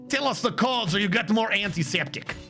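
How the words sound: It is said in a put-on Russian-like accent.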